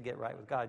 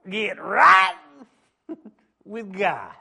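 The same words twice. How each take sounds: First: It is said in a calm, plain voice. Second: It is said loudly with fervent preaching energy. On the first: The speaker calls it wrong. "You can't say get right with God" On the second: The speaker calls it right. "You got to say get right with God"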